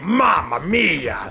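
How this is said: It is said in a Wario voice.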